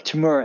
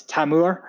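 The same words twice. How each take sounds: First: "Timur" with a weak first vowel, "tuh-MOOR"; original pronunciation. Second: "Tamur" with a full open "tam" at the start; Scottish pronunciation. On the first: Guest contrasting his name's two forms, original pronunciation of "Timur". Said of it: "instead of Timur". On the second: Guest showing what schoolmates called him, Scottish pronunciation of "Tamur". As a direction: say "Tamur" as "TAM-oor", not "tuh-moor". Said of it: "we pronounce it". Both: Shown as a demonstration.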